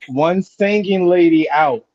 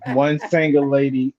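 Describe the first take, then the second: First: "One singing lady out" slow, higher, drawn out; corrected sign-off. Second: "One single lady" said through a laugh; amused repeat. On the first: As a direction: announce "singing lady out" slowly and deliberately. Corrected sign-off after the tease. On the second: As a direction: repeat it with a chuckle. Repeats wrong word while laughing. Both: Real, not acted.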